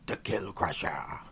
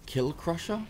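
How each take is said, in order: First: Half-hearted orc growl; lightly voiced orc warlord. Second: Said in the usual way. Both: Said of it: "too early for me to be doing my orc voice".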